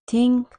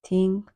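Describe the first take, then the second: First: Loud, high punch on Think; teacher stressing Think for the class; emphatic. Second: Said in the usual way. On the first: Shown as a demonstration. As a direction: hit Think hard and high. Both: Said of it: "teacher models phrase twice".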